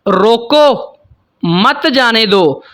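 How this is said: The pause comes right after रोको.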